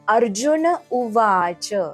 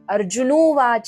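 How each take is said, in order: First: The final n is fully said before u. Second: The words merge into one with an o sound. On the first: The speaker calls it right. "इथे आपल्याला न चा पूर्ण उच्चार करायचा आहे" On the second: The speaker calls it wrong. "अर्जुनोवाच असं नाहीये ते"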